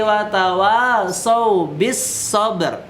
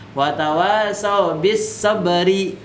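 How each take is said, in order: First: The last word ends on the r sound. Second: The last word ends with an added i vowel. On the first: The speaker calls it right. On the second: The speaker calls it wrong.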